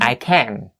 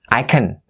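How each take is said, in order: First: The word can is stressed and fully pronounced. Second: The word can is unstressed and reduced. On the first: The speaker calls it wrong. "not I can" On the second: The speaker calls it right. "we're trying to emphasize the word something instead of can"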